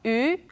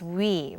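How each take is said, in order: First: It is one steady vowel without a glide. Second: It starts with a w glide into ee. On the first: This is the older way of saying it. "the original pronunciation of this sound is actually a very basic um, sound" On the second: This is how people usually say it today. "nowadays we tend to just pronounce it as we"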